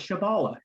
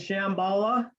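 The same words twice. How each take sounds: First: The word is said without an m sound. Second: The word is said with an m sound. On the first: "Shambhala without the M" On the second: "you mean Shambhala?"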